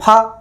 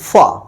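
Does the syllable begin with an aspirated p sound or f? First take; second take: aspirated p; f. First: It begins with an aspirated p sound. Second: It begins with an f sound. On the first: "ऐसे उच्चारण करेंगे तो" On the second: "जब नुक्ता लगे रहेगा तो उसे बोलेंगे"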